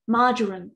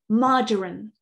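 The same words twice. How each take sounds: First: It is said in a British English accent. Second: It is said in a British English accent.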